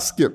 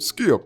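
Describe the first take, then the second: First: The name is said in a plain accent. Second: The name is said in a Southern accent. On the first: "Not Skip" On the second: "the way he pronounces Skip Bayless's name"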